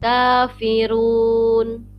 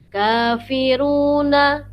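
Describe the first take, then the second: First: The word ends on a consonant, no vowel. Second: The word ends with a final vowel. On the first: The reader stops at this word. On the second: The reader continues without stopping.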